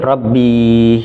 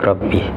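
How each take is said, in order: First: The final vowel is drawn out long. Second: The final vowel is kept short. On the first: The speaker calls it wrong. "jangan menjadi Rabbi" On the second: The speaker calls it right. "ini pendek Rabbi"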